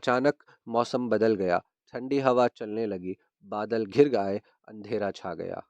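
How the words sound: There is a pause after each clause.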